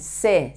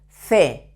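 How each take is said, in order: First: The consonant sounds like a strong s. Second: The consonant sounds like English th. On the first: "in Latin America and many places of southern Spain" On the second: "in Spain"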